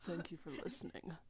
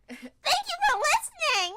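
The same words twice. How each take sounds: First: It is said in a deep, manly voice. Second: It is said in a cute, girly voice.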